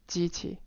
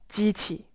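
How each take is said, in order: First: The tones have a compressed, reduced pitch contour. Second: The tones keep their full pitch contours. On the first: "for one level of de-stressing, it becomes like" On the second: "stressed, you have"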